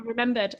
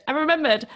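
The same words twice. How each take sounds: First: Said in the usual way. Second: Higher, louder I remembered with a falling end; suddenly recalling it, pleased; remembered hit high and loud; excited realisation. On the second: Real, not acted. Second take, excited recall.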